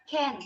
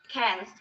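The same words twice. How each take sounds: First: "can." reduced to a quick unstressed schwa; light reduced "can."; weak form of can. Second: "can." said in full, with a clear open vowel; stressed full "can."; strong form of can. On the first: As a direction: swallow the vowel in "can.". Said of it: "Can is weak form". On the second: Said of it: "Can is strong form". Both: Shown as a demonstration.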